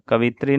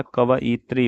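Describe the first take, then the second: First: कवित्री shortened to ka-vi-tri; wrong pronunciation. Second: Said in the usual way. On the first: Shown as a demonstration. Teacher shows students the error, कवित्री a syllable short. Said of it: "नहीं होता". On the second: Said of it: "होता है".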